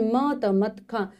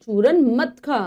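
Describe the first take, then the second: First: Spelled out slowly. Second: Said in the usual way. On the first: Shown as a demonstration. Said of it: "spelled out before the sentence". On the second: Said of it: "whole phrase read after spelling".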